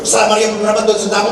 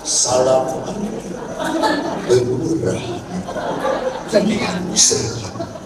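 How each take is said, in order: First: The prayer is rattled off quickly. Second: The prayer is said slowly and deliberately.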